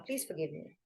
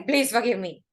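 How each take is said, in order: First: Much softer, lower, bowed-head plea; humble, surrendering. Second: Defiant, not sorry. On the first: Teacher demonstrating surrender in prayer, soft humble plea. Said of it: "the image of surrendering and bowing your head". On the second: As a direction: say "Please forgive me" like you don't mean it. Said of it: "You can't say". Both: Shown as a demonstration.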